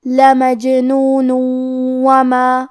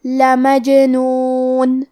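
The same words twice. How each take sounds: First: Slow لمجنون وما with the final n merged into و through the nose; slow, nasal idgham from لمجنون into وما; nasal merge demo. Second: Very slow لمجنون with the silent ج bounced; very slow, bouncing ج in لمجنون; qalqala demo. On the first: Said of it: "تنوین کو واو میں ملا کے غنہ اور تشدید". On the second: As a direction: make the ج in لمجنون echo. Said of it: "جیم کو ہلاتے ہوئے یہ کلمہ کو پڑھیں". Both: Shown as a demonstration.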